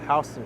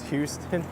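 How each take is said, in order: First: The first syllable sounds like 'how'. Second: The first syllable sounds like 'hew'. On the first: This is how locals say it. The speaker calls it right. "the correct way is Houston Street" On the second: This is how an outsider would say it. The speaker calls it wrong. "Lawrence pronounces it as Houston"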